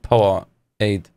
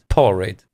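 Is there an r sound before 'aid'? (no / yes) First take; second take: no; yes. First: No r sound comes before 'aid'. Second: An r sound comes before 'aid'. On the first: The speaker calls it wrong. "und nicht Power Aid" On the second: The speaker calls it right. "Es heißt Power Raid"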